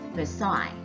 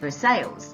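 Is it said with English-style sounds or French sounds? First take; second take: French; English-style. First: It is said with French sounds. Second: It is said with English-style sounds. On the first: The speaker calls it right. "it is actually pronounced" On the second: The speaker calls it wrong. "this might look like"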